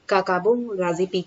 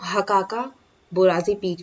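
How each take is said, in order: First: The name starts without an H sound. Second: The name starts with an H sound. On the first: "एच को वैसे तो silent रखा जाता है" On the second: "कहीं कहीं पे आपको हकाका बोराजी पीक भी मिल जाएगा"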